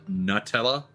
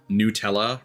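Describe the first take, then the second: First: The first syllable sounds like 'nut'. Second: The first syllable sounds like 'new'. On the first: It matches the product's hazelnut ingredient. The speaker calls it right. "rather than Nutella because it's made with hazelnuts" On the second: This is how the brand says it. The speaker calls it wrong. "the brand, is pronounced Nutella"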